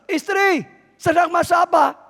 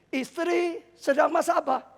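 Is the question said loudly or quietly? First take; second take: loudly; quietly. First: The question is said at a louder volume. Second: The question is said at a quieter volume.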